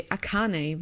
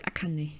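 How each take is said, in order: First: Akane said the English way, ah-KAH-nee; English pronunciation. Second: Akane said the Japanese way, flat A-ka-ne; Japanese pronunciation. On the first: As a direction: say Akane anglicized. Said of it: "but it's Akane in Japanese". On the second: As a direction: say Akane with even Japanese syllables. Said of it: "in Japanese". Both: Shown as a demonstration.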